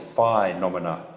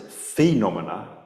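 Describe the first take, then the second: First: The diphthong is pronounced the Latin way. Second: The diphthong is pronounced the English way. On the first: "we pronounce that diphthong is phenomena in Latin" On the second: "we pronounce it phenomena, right, in English"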